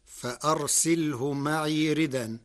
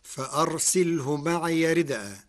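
First: ردا with hamza dropped, its vowel moved to dal, ridan; معي with still ya, ردا without hamza; Warsh reading. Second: ردءا with a stopped hamza, rid'an; معي with open ya; standard reading. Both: Shown as a demonstration. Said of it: "بنقل حركة الهمز".

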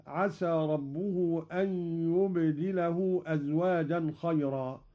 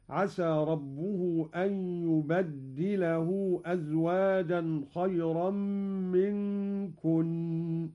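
First: يبدله with a light dal, yubdilahu; standard reading. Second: يبدله with a doubled dal, yubaddilahu; Qalun reading. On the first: Teacher recites the usual reading, yubdilahu. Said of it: "قرأ قالون بتشديد الدال". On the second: Teacher demonstrates Qalun's reading, doubled dal. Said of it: "قرأ قالون بتشديد الدال على التكسير هكذا". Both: Shown as a demonstration.

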